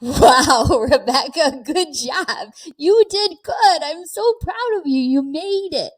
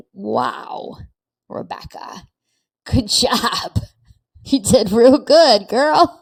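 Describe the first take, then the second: First: High, beaming self-praise with a laugh; proud older self. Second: Hushed name, then louder praise; proud older self, again. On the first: Imagining her older self praising her, high and beaming. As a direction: cheer yourself on like your hundred-year-old self. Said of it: "I wanna get to a hundred and say". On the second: Imagining her older self praising her, hushed then louder. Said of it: "when I'm a hundred and say". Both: Retold or imitated.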